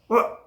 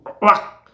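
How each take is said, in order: First: The exclamation is calmer and less exaggerated. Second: The exclamation is loud and exaggerated. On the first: The speaker calls it right. "다시 한번 할게요" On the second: The speaker calls it wrong. "이건 좀 너무 과했는데"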